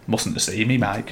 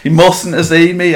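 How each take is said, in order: First: Understated retold aside. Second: Higher, livelier repeat of a punchline; emphatic retold quote. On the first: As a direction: quietly quote a resigned remark. Retold muttered aside to his mate. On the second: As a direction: repeat it for comic effect.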